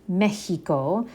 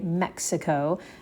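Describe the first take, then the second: First: The middle consonant is an h sound. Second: The middle consonant is a ks sound. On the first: This is the Spanish way to say it. "but in Spanish, it's Mexico" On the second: This is the English way to say it. "In English, we would say Mexico"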